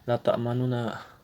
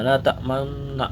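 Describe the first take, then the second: First: A faint, quick u-vowel is heard between the n sounds. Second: The double n is held with rounded lips, no vowel. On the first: "membaca harokat dengan samar dan cepat" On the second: "mencampurkan domah pada sukun dengan memoncongkan bibir"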